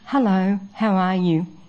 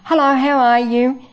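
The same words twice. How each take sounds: First: It sounds warm and genuinely concerned. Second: It sounds casual, without real feeling.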